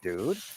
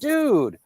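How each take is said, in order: First: It sounds worried and concerned. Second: It sounds happy and pleased for someone.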